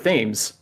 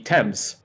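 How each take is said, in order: First: It is said with an American pronunciation. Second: It is said with a British pronunciation. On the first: "in the states is pronounced the Thames" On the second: "in the U K that would be Thames"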